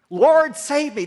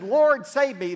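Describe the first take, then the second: First: High, loud plea while sinking; desperate cry. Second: Desperate cry. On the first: Sinking Peter begging the Lord, loud desperate cry. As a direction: shout it as the water closes over you. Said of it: "That's all he could think to gurgle out". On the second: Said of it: "when Peter said". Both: Acted.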